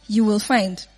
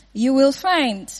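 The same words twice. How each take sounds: First: Said in the usual way. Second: Slow, stressing the word find; slow emphatic "You will find"; slow emphatic promise. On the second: Shown as a demonstration. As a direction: drive the promise home slowly.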